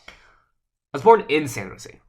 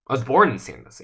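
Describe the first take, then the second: First: The word in is stressed. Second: The word born is stressed. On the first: The birth was inside the city, not outside. "I'm emphasizing in" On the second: The speaker is a native, not a newcomer. "I'm a native, not a newcomer"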